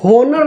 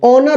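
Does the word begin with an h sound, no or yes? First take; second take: yes; no. First: The word begins with an h sound. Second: The word begins with a vowel sound. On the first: The speaker calls it wrong. "होनर नहीं उच्चारण करेंगे" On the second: The speaker calls it right. "ऑनर उच्चारण करेंगे, एच है लेकिन silent है"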